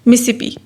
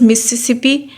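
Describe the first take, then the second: First: One repeated syllable is dropped from the word. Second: All four syllables are pronounced in full. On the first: "उसमें से वो एक syllable delete कर देते हैं" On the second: "deletion of one of two identical syllables"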